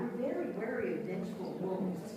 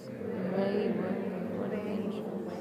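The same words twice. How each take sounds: First: Stressed syllables hit, unstressed ones reduced; with rhythm. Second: Louder, stressed syllables pushed hard; over-mark the rhythm for the class; exaggerated rhythm. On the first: Teacher demonstrating full syllable stress. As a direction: let the beat of the twister carry it. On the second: Teacher repeating twister with exaggerated stress. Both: Shown as a demonstration. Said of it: "One more time".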